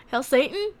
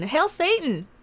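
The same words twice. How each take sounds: First: SATAN rising at the end, as a question; puzzled question. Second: Said in the usual way. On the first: Real, not acted. Woman querying a hate message's sign-off, puzzled question. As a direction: echo it back, lifting SATAN into a question. Questions the line just read.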